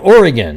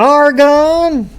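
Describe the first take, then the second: First: The word ends with a 'gun' sound. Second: The word does not end with a 'gun' sound. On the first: The speaker calls it right. "the best way to do it is just say Ori, O R Y, and then gun" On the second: The speaker calls it wrong. "nothing worse than hearing that"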